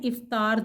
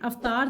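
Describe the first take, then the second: First: The word begins with a short i sound. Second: The word begins with a short a sound. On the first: The speaker calls it right. "इफ्तार दुरुस्त है" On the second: The speaker calls it wrong. "अफ्तार दुरुस्त नहीं है"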